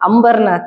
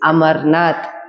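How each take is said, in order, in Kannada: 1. ಹೆಸರಿನಲ್ಲಿ 'm' ನಂತರ 'b' ಇದೆ. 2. ಹೆಸರಿನಲ್ಲಿ ಸಾದಾ 'm' ಧ್ವನಿ ಇದೆ. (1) "ಅಂಬರ್ನಾಥ್ ಅಲ್ಲ ಅದು" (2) "ದಟ್ ಈಸ್ ಅಮರ್ನಾಥ್"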